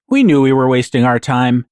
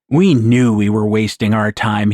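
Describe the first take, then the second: First: It is said in a relaxed, mellow tone. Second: It is growled in a bitter tone. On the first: Nothing was expected, so there is no anger. "if Jethro had said the same words" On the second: The speaker resents how he was treated. "he would growl"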